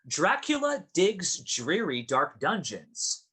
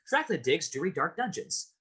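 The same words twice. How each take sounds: First: It is said at a moderate pace. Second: It is said very fast.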